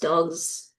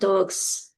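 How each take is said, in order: First: The word ends with a buzzing Z sound. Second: The word ends with a hissing S sound. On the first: The speaker calls it right. "with the Z sound" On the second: The speaker calls it wrong. "it's not dogs"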